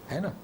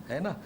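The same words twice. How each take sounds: No difference in how they are said.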